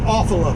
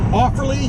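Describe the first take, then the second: First: The name ends with an 'la' sound. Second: The name ends with a 'lee' sound. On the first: This is a personal, funnier habit. "But I always called it Offala. Just sounds funnier" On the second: This is how the town is properly named. "is the actual proper way to pronounce the name of the town"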